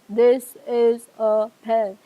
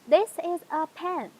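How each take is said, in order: First: It is said in an old man's voice. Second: It is said in a normal voice.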